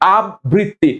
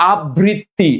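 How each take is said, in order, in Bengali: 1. 'b' ধ্বনিটি দ্বিত্ব, যেমন abbritti। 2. 'b' ধ্বনিটি দ্বিত্ব, যেমন abbritti।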